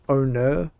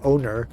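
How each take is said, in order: First: It ends in a vowel without an R sound. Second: It ends with a clear R sound. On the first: "It's just my Australian accent. I don't say the R very much" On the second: "If I was American, it would be much more clear"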